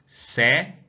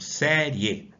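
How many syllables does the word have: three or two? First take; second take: two; three. First: The ending is said as one syllable. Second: The ending is split into two syllables. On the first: "ela é uma paroxítona terminada em ditongo" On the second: "última, penúltima, antepenúltima"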